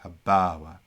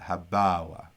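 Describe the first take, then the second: Both takes have the same delivery.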